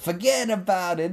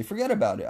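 First: High, hammed-up East Coast accent; exaggerated mock East Coast accent; bad East Coast accent. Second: Said in the usual way. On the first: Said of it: "that was not my best accent". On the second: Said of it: "But seriously".

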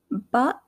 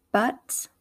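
First: British "butt" with the t swallowed; English accent, glottal end on "butt". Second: American "butt" with a sounded t; American accent, crisp t in "butt". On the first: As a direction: say "butt" as in England, "buh'". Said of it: "pronunciation would be in England". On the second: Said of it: "how I would say it". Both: Shown as a demonstration.

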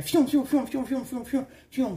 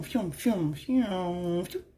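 First: Quick whooshing phews. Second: Slowed phews. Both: Retold or imitated. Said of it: "That's all I'm hearing".

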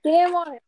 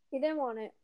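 First: Louder and higher teasing jab; playful louder needling. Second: Said in the usual way. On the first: Shown as a demonstration. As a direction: throw out He didn't want it loud and mocking.

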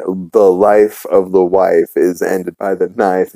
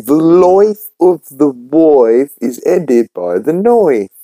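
First: Said in the usual way. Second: "life", "wife" and "knife" said like "loif", "woif", "noif", pitched higher; mock Cockney vowels in "life", "wife" and "knife", slow and higher; Cockney-style vowels. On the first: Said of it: "He's trying to teach her how to say". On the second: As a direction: imitate the girl's drawn-out, higher "loif of the woif". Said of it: "And she keeps saying".

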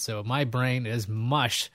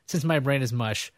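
First: Slow and a little softer; slow, drained. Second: Said in the usual way. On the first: Real, not acted. Host telling viewers his brain is mush, slow and drained. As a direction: let the words sag, worn out.

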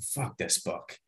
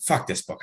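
First: Muttered low and soft under the breath; under his breath. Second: Said in the usual way. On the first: Retold or imitated. Passenger muttering at a morbid book, under his breath. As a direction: mutter it so nobody near hears. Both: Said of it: "I literally said that under my breath".

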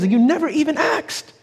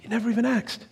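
First: Higher rising accusation; mock accusing peak. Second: Quiet echo. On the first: Sister confronting the EMT, rising angry reproach. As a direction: throw the accusation back hard. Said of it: "she says". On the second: Shown as a demonstration. Preacher repeating sister's words to church, hushed. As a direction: let the line sink in, hushed.

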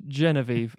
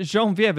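First: "Genevieve" said English-style, JEN-uh-veev; hard English "j", ending "veev" on "Genevieve"; English pronunciation. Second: "Genevieve" said French-style, zhon-vee-EV; French-style pronunciation. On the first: Host correcting the name, "Genevieve" as JEN-uh-veev. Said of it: "that's how I supposed to think". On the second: Host puzzled by film's name, "Genevieve" as zhon-vee-ev. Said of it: "British people pronouncing things wrong". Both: Shown as a demonstration.

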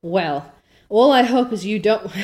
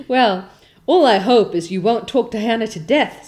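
First: Said in the usual way. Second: A hint of a stern old woman, louder; stern Marilla. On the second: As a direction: scold her like a dry spinster. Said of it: "said Marilla".

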